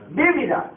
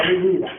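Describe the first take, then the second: First: Vívida stressed on the first syllable, VÍ-vi-da; correct stress. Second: Vivida stressed on the middle syllable, vi-VI-da; wrong stress. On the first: Teacher models Vívida for the class with stress on VÍ. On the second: Teacher models the wrong vivida for the class, stressing vi-VI-da. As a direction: say vivida with the accent on the second i, as the mistake. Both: Shown as a demonstration. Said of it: "No vivida".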